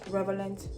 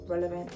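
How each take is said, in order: First: The word begins with the sounds 'rev'. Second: The word begins with the sounds 'rel'. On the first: The speaker calls it wrong. "Not relevant" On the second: The speaker calls it right. "R E L, not R E V"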